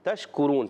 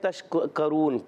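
First: The k sound is followed by a 'u' vowel. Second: The k sound is followed by an 'a' vowel. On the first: The speaker calls it right. "کوشش کریں صحیح طریقے سے ادا کریں" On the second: The speaker calls it wrong. "کسی بچے نے تشکرون کاف پر زبر پڑا تو ایسا نہیں کریں"

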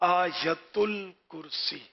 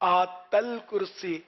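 First: The first word is said in full, with every sound. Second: The first word is shortened, losing its middle sound. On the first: The speaker calls it right. "تو اصل تلفظ ہے آیت الکرسی" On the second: The speaker calls it wrong. "یوں بھی لوگ بول دیتے ہیں"

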